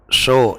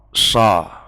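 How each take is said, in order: First: The vowel is a fully rounded o. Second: The vowel is a plain, light a. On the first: "itu terlalu berat" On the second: "itu sudah hampir tepat"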